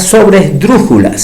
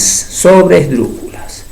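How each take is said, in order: First: Said in the usual way. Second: "sobresdrújulas" stretched out syllable by syllable; slow, deliberate. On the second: Shown as a demonstration. Teacher repeating a new term, "sobresdrújulas" said slowly. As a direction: spell out "sobresdrújulas" slowly by ear.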